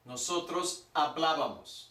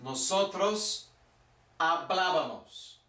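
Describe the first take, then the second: First: Said in the usual way. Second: "Nosotros" drawn out slowly, then "hablábamos" with the stress on the accented "bá"; careful word-by-word model of "Nosotros hablábamos"; slow stressed demo. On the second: Shown as a demonstration. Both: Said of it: "With an accent".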